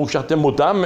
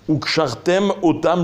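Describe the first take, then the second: First: The final m runs into the next word. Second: The two words are clearly separated. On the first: The speaker calls it wrong. "si on fait pas attention, on va dire" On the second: The speaker calls it right. "deux mots bien distincts qu'il faut savoir bien séparer"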